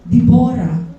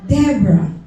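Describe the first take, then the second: First: The name is said with a Hebrew pronunciation. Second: The name is said with an English pronunciation. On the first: "sa Hebrew, they pronounce it as" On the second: "Pero sa English"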